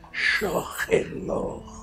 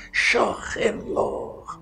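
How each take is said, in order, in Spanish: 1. Se dice despacio y con calidez, con mucho sentimiento. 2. Se dice despacio y con calidez, con mucho sentimiento.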